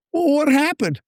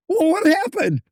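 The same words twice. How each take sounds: First: Pressing disbelief. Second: Pitched higher, more insistent; higher, more urgent retold demand. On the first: Retold or imitated. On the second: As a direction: push harder for the answer. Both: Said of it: "I'm almost yelling at him".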